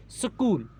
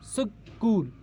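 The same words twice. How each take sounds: First: Said in the usual way. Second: school split as सक, pause, कूल; syllable break. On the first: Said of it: "जब हमने school पढ़ा". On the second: Shown as a demonstration. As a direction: say school in two separate beats. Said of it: "एक जगह हमारी आवाज़ टूटी". (School को तोड़कर, सक... कूल)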